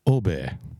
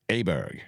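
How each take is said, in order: First: The name begins with an 'or' vowel sound. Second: The name begins with an 'a' vowel sound. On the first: The speaker calls it right. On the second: The speaker calls it wrong. "They wouldn't be running around going, hey, Ludwig Aberg"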